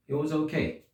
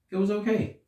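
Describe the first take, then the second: First: Said in the usual way. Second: Okay lifted high and hesitant, higher pitch; OKAY said high, like a doubtful shrug; unsure okay. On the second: Shown as a demonstration. Reviewer sums up the movie, a high questioning okay.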